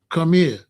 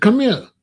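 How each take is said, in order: First: Said in the usual way. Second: Firm, higher, louder call across the playground; raised summons. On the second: Retold or imitated. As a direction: call the kid over sharply. Calling a scared boy over.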